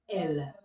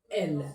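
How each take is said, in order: First: It is said with an open 'eh' vowel. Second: The same.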